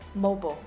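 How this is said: The word is said with an American pronunciation. "But Americans say this word mobile"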